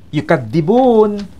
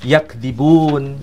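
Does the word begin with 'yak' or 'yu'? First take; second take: yu; yak. First: The word begins with yu and has four syllables. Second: The word begins with yak and has three syllables. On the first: "tidak dibaca yukadzibun" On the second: "tapi dibaca yakdzibun"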